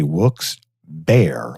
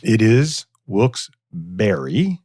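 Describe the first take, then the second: First: Wilkes Bear said slowly, Bear like the animal; mock radio Bear. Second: Wilkes-Barre said slowly, ending like berry; careful Wilkes-Barre. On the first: Mocks a radio ad's wrong name, slow Wilkes Bear like the animal. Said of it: "they say Wilkes Bear like an animal". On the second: Shown as a demonstration. Slowly shows a guest how the city's name is said, Wilkes-Barre ending like berry. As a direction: spell out Wilkes-Barre with a slow Barry ending.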